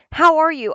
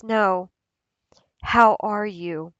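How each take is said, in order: First: Loud, high, breezy hello; perky passing pleasantry; casual greeting. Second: Pause, then ask as if you truly mean it; earnest, unhurried check-in; sincere concern. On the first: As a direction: toss it out as a quick social greeting. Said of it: "as soon as somebody says". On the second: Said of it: "But then whenever somebody says". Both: Acted.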